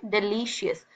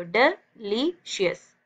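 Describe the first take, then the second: First: Said in the usual way. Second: "delicious" in three very slow, separate breaths; syllable by syllable. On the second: Shown as a demonstration. Teacher demonstrating three breaths, syllable by syllable "delicious". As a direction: pause after डि and after ली in "delicious". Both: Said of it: "तीन सांसों में पढ़ रहे हो".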